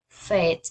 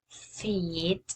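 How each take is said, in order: First: The vowel is a short 'e' sound. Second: The vowel is a long 'ee' sound. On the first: The speaker calls it wrong. "the pronunciation is now fed" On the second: The speaker calls it right. "The correct pronunciation is feed"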